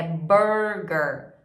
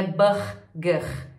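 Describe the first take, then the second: First: "burger" with curled American R, very slow; slow, lower model of English "burger"; correct English R. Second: "burger" with guttural, h-like Brazilian R; slow mistaken "burger" with Portuguese R; wrong Brazilian R. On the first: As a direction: draw out both R's in "burger" the English way. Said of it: "trabalhar essa pronúncia do R". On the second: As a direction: show "burger" wrongly, rasped R in both syllables. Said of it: "não é o R". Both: Shown as a demonstration.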